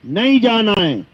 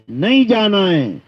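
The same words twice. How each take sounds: The two takes are said the same way.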